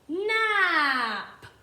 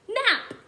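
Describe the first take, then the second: First: The word is stretched out slowly. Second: The word is said at normal speed.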